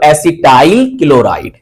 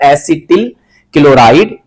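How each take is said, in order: First: The first word ends with a long 'tail' sound. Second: The first word ends with a short 'til' sound. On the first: "या आप पढ़ सकते हो" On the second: "common name होता है"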